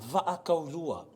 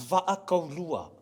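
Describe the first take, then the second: The two takes are said the same way.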